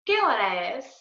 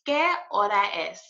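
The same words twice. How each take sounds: First: It is said quickly at natural speed. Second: It is said slowly and carefully.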